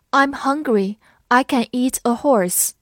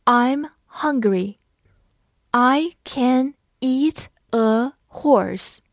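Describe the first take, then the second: First: Said in the usual way. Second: Slow, separated words; word by word with a pause after each; slow read-along. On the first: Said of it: "慢读一遍". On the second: Shown as a demonstration. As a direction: model it slowly for learners. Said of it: "那我们慢读一遍".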